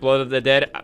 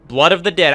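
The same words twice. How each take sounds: First: The words are slurred together indistinctly. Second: The words are said clearly and distinctly. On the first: The speaker calls it wrong. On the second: The speaker calls it right.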